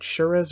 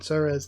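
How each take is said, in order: First: The word begins with a 'sh' sound. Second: The word begins with an 's' sound. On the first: The speaker calls it right. "I should probably pronounce it Shuras" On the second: The speaker calls it wrong. "rather than Suras"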